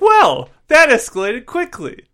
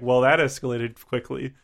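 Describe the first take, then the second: First: It is said with lively expression. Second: It is said flatly, without expression.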